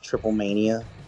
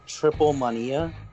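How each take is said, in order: First: It is said with an American English pronunciation. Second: It is said with a Spanish pronunciation. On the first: The speaker calls it wrong. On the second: The speaker calls it right. "Actually, it's Triple Mania"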